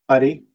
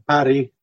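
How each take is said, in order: First: The R is a single short tap. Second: The R is a trilled, rolled R. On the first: It means maggot or rice. "the short tap" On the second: It means lit, as in lighting a fire. "with a rolled R"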